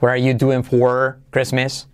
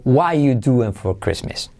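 First: "What are you doing for Christmas" slower, full R in "for". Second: "What are you doing for Christmas" starting "wa you"; reduced option. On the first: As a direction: give "for" its R before "Christmas". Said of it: "Lo puedes decir perfectamente". («What are you doing for Christmas» lento, con R en «for») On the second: («What are you doing for Christmas» reducido, sin verbo) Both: Shown as a demonstration.

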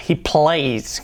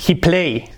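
First: "he plays" with a clear final S; clear plural S. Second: Said in the usual way. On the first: Shown as a demonstration. Teacher corrects to "he plays". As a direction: finish "plays" with a crisp S. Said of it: "con la L bien fuerte". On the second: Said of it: "tercera persona sería".

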